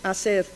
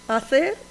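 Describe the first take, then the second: First: The middle consonant is an s sound. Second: The middle consonant is a th sound. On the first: "ponen en su lugar la S" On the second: "Estoy suponiendo la pronunciación interdental"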